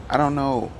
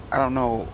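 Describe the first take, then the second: No difference in how they are said.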